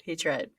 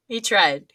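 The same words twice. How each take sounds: First: Said in the usual way. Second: Laughing. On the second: Real, not acted. Repeats with laugh.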